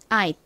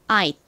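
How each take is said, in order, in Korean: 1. 마지막 T는 짧고 빠르게 끊어져요. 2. 마지막 T는 짧고 빠르게 끊어져요.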